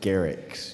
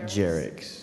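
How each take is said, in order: First: The name begins with a hard G sound. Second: The name begins with a J sound. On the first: The speaker calls it right. "It's Garrix" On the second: The speaker calls it wrong. "not Jerix"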